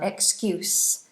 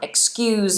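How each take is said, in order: First: The final consonant is a soft s sound. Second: The final consonant sound is strong, not a soft s. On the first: It refers to giving a reason to cover something. "So you're soft, you do an S sound" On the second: It is said firmly when shocked by rudeness. "So we have the stronger sound"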